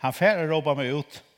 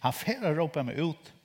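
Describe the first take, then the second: First: Repeated quote. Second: Said in the usual way. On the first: Retold or imitated. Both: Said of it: "han har sagt".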